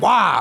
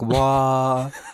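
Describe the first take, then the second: First: It is said in an angry way. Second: It is said in a sad way.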